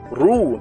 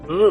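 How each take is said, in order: First: It is said with rounded, pushed-out lips. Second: It is said with spread, smiling lips. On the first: The speaker calls it right. "Mesti muncung mulut" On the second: The speaker calls it wrong. "Cuba awak senyum sampai sebut... Tak boleh. Ha, dia jadi pelik"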